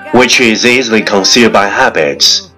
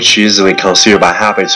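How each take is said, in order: First: It is spoken at a moderate pace. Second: It is spoken very fast in one breath. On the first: "跟上我的节奏。" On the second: "一口气最快语速"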